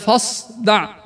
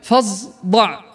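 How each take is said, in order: First: The consonant after the fa is a voiceless emphatic s. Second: The consonant after the fa is a voiced z. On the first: The speaker calls it right. "بدل" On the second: The speaker calls it wrong. "ويقول مثلها كذلك"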